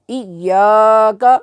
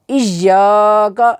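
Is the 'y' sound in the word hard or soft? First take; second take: soft; hard. First: The 'y' is said softly and gently. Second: The 'y' is said hard, almost like 'j'. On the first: The speaker calls it right. "या को नरमी के साथ अदा करेंगे" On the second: The speaker calls it wrong. "इय्याका ऐसे नहीं पढ़ेंगे"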